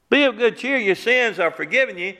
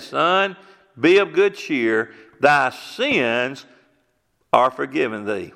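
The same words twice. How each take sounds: First: Higher, sarcastic echo of the blessing; mocking repeat. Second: A slow, solemn blessing; Jesus speaking. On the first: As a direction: parrot it back in disbelief. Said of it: "paralyzed man mocks the words". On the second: Retold or imitated. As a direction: lay each word down gently, like a blessing. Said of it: "He said".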